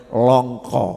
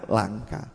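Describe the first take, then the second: First: "Longko" said with rounded o vowels in place of a; the preacher slips into "Longko" with o sounds before correcting himself; mispronounced. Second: Said in the usual way. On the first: Shown as a demonstration. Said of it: "Ya lang-, langka". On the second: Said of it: "Ya lang".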